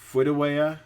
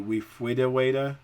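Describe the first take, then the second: First: Many sounds are replaced and some dropped. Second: A few sounds are replaced, mainly r with w. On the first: "A moderate disorder is" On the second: "a mild disorder would be"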